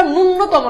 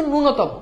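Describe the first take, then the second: First: ন্যূনতম with a doubled, held n after the first vowel, "nun-notomo"; mispronounced ন্যূনতম. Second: ন্যূনতম with a single short n, "nu-notomo"; correct ন্যূনতম pronunciation. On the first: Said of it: "উচ্চারণটা ন্যূনতম না". (ন্যূনতম-এ জোড়া ন দিয়ে "নুন্নতম" উচ্চারণ) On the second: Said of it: "উচ্চারণটা হচ্ছে ন্যূনতম". (ন্যূনতম-এ একটা ন দিয়ে "নূনতম" উচ্চারণ) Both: Shown as a demonstration.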